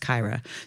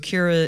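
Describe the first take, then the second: First: The name rhymes with Tyra. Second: The name does not rhyme with Tyra. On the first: "it rhymes with Tyra" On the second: "Kira is the pronunciation in my head"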